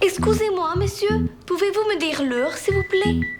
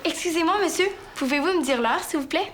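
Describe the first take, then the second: First: It is spoken with a put-on Spanish accent. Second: It is spoken in a natural, unaccented voice. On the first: The character is a one-eyed Spanish woman. The speaker calls it wrong. "C'est quoi cet accent-là" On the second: The character is played more naturally. The speaker calls it right. "sans l'accent"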